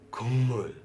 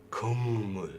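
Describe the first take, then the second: No difference in how they are said.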